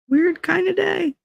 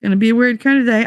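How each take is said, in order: First: Much higher, slow weird kind of day; "weird kind of day" drawn out way up high; sing-song weird. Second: Fast Gonna be a weird kind of day; "weird kind of day" rattled off fast; brisk repeat. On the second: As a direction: rattle it off quickly. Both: Pretend. Repeats phrase differently.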